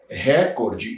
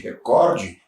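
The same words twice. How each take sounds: First: The stress is on the first syllable. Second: The stress is on the second syllable. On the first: The speaker calls it wrong. "é um barbarismo" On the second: The speaker calls it right. "em vez de"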